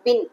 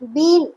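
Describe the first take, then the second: First: The vowel is short, like 'bin'. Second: The vowel is long, like 'bean'. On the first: The speaker calls it right. "இதோட actual pronunciation என்னன்னா பின்" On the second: The speaker calls it wrong. "இத எல்லாருமே பீன் அப்படின்னு spell பண்றீங்க"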